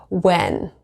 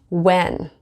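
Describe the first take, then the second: Both takes have the same delivery.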